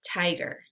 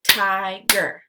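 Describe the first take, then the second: First: Said in the usual way. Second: "Tiger" as two separate beats, Ti – ger; syllables split apart. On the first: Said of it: "blend it together". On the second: Shown as a demonstration. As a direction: say "Tiger" syllable by syllable, pausing between. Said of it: "give you the parts of the syllable".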